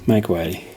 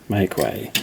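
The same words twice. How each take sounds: Both takes have the same delivery.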